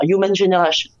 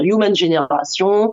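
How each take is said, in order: First: It is pronounced with English sounds and stress. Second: It is pronounced with French sounds and stress. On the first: "Si on a envie faire un peu plus anglais, ben, on dira" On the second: "si on a envie d'être plus français, on va dire"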